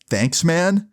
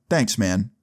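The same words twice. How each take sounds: First: "Thanks, man?" higher, rising into a question; puzzled echo. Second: Said in the usual way. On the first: Retold or imitated. Kid echoes his bully, "Thanks, man?" as a puzzled rising question. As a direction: echo "Thanks, man?" in disbelief, pitch climbing at the end.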